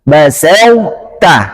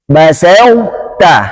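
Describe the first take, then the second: The two takes are said the same way.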